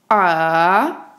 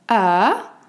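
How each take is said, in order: First: The pitch dips low, then rises again. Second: The pitch rises from middle to high. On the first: "un ton descendant puis montant" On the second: "un ton montant du médium vers l'aigu"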